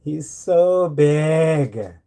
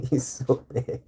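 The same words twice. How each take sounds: First: "He's so big" stretched very slowly, "so" leaned on; drawn out. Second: "He's so big" through a laugh, slowish. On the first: Marvelling at his huge cat, drawn out slowly. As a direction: drag out "so" in awe. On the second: Laughing at how huge his cat is. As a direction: giggle the words out. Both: Real, not acted.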